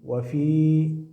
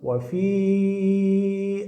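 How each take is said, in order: First: The final vowel is held for a short time. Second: The final vowel is held for a long time. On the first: The reader stops after this word. "you will apply a natural mad here" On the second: The word is joined to the next word. "you will prolong here the sound of the letter Ya, four harakat"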